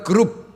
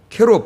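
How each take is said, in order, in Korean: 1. 이 단어는 'geu' 소리로 시작합니다. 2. 이 단어는 'ke' 소리로 시작합니다. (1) "우리는 그냥 발음대로 한글 발음대로 그룹" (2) "원래는 히브리 말로 읽으면 케룹"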